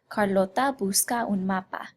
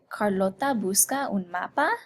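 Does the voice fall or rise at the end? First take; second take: falls; rises. First: The pitch stays level and falls at the end. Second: The pitch rises toward the end. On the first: It states a fact. "the statement" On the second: It asks a question. "If we wanted to ask a question"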